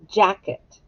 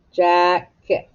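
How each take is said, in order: First: Said in the usual way. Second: Jacket in two separate beats, jack, et; split into syllables. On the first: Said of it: "Echo me". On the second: Shown as a demonstration. Teacher scooping syllables for the class, Jacket split in two. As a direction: break Jacket after the ck. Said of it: "Scoop it".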